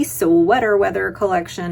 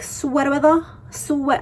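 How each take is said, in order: First: Said in the usual way. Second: Put-on quick high Boston accent from the SNL skit, half-hearted; imitating the SNL skit in a higher Boston accent. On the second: She quotes the SNL skit in a jokey Boston accent. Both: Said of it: "I can't even do the Boston accent".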